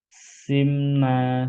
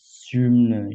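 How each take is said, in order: First: The first vowel is a plain front 'i'. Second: The first vowel is rounded toward 'u'. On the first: "pakai kasroh" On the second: "ismam ya"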